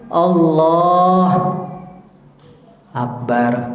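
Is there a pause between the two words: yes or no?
yes. There is a pause between the two words.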